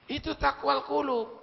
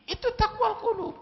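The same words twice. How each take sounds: First: Said in the usual way. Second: "Itu taqwal qulub" pitched much higher, quicker; emphatic high repeat. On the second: Shown as a demonstration. Preacher drives home "taqwal qulub" to congregation, pitched high. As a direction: lift "taqwal" high and fall off it.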